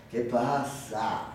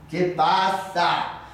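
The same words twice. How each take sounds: First: Low, slow, quiet question; manager's voice. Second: Slow question at full voice; manager's voice, firmer. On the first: Manager looking up from his report, low slow drawl. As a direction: ask it slowly, deep and soft. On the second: Manager demanding to know the matter, slow firm question. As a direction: repeat it more firmly, stretched out. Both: Acted. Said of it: "dijo el gerente".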